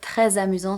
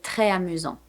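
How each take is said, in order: First: The S is sounded and joined to amusant. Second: The S is not sounded before amusant. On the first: The speaker calls it right. "sounds much better" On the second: The speaker calls it wrong. "It would sound really odd to say"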